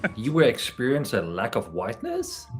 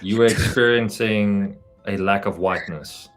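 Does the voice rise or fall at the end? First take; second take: rise; fall. First: It is read as a question, rising. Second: It is read as a plain statement, falling.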